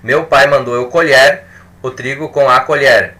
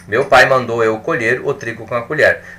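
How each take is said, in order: First: The first colher has an open e. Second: The first colher has a closed e. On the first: The speaker calls it wrong. "Vamos experimentar pronunciar de forma diversa" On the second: The speaker calls it right. "a pronúncia que eu faço é diferente"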